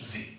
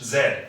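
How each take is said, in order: First: The letter is said as 'zee'. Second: The letter is said as 'zed'. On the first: This is the American English form. "American English जी" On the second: This is the British English form. "British English जेड"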